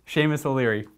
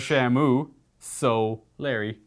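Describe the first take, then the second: First: The name is split as Seamus O'Leary. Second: The name is split as Shamu Solari. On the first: The speaker calls it right. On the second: The speaker calls it wrong.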